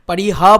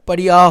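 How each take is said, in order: First: The middle consonant is an h sound. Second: The middle consonant is a y sound. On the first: The speaker calls it wrong. "পারিহা বলা উচিত কি না জানি না" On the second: The speaker calls it right. "উচ্চারণটা পারিয়া হওয়া উচিত"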